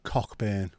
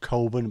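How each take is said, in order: First: The ck is pronounced, like Cock-burn. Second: The ck is silent, like Co-burn. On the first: The speaker calls it wrong. "Not Cockburn. Although some people do pronounce it that way" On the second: The speaker calls it right. "That's Coben, by the way"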